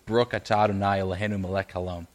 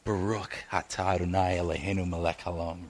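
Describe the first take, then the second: First: The blessing is said quickly and routinely. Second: The blessing is said slowly and with weight. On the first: The words are recited out of habit. "we kind of go through that" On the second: The words are meant deeply and personally. "held the weight of those words? ... What if he said it differently?"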